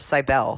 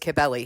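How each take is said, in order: First: The name is said the way it looks. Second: The name is said unlike how it looks. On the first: The speaker calls it wrong. "I was saying the name wrong. I was referring to it as the cult of Cybele, because that's kind of how it's spelled" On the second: The speaker calls it right. "The goddess's name is Cybele"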